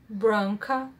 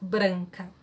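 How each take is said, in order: First: The A vowel is dark, like in car. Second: The A vowel is open and bright. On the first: The speaker calls it wrong. "they have car vowel instead" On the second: The speaker calls it right. "this open A vowel"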